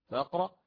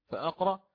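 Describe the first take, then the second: The two takes are said the same way.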